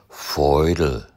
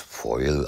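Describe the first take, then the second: First: The word is said with its middle d sound. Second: The word is said without its middle d sound.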